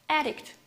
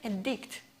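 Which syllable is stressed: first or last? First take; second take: first; last. First: The stress is on the first syllable. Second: The stress is on the last syllable. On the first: It names a person who is addicted. "is a noun. As I told you before, noun has the first syllable stressed" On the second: It names the action of making someone dependent. "It's a verb. As I told you before, the last syllable is stressed in the verb"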